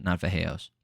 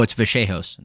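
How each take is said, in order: First: Vallejos said softly as the mistaken pronunciation; mock the wrong Vallejos under the breath; wrong version. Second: Said in the usual way. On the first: Shown as a demonstration. Host correcting fighter's name, softer wrong version.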